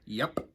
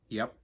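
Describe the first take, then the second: First: The final p is crisp and strongly released. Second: The final p is soft and barely released.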